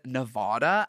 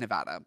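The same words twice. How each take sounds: First: The word is said with a British-sounding accent. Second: The word is said with a plain American accent. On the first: The speaker calls it wrong. "as if I'm British or as if I have some sort of bizarre ass accent" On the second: The speaker calls it right. "I always say Nevada"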